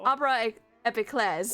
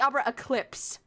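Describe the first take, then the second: First: The second word is said as 'epiclese'. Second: The second word is said as 'eclipse'. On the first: The speaker calls it right. "I have been pronouncing it wrong this whole fucking time" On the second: The speaker calls it wrong. "I've been calling it the Opera Eclipse this whole time"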